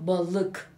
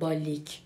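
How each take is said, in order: First: The second vowel is a back unrounded sound. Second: The second vowel is a front 'ee' sound. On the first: The speaker calls it right. "میگم balık" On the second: The speaker calls it wrong. "نمیگم بالیک"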